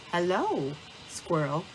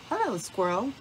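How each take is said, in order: First: Lightly hooted greeting; hooting owl. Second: Lightly called friendly greeting; calling out. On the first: Owl greets Squirrel on the path, lightly hooting. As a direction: draw out the hello in a gentle owl hoot. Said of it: "Owl hooted". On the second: Badger greets Squirrel passing his den, lightly calling out. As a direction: greet a passer-by with a small lift, not a shout. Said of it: "Badger called out". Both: A narrator's reading.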